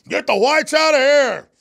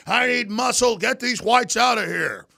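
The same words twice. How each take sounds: First: High, loud hammed-up yell, drawn out; mock shout. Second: High, loud mock yell, slow on the last words; mock yelling professor. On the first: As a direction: bellow it like a bossy professor. Repeats professor's yell. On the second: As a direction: ham up a bossy professor ordering people out.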